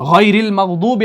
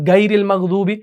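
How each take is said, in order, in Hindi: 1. पहली आवाज़ throaty gh है। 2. पहली आवाज़ hard g है। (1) "आप पढ़ते हैं ना गैरिल मगदूबे अलैहिम सूरह फातिहा में" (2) "गैन को अगर आप गाफ पढ़ेंगे"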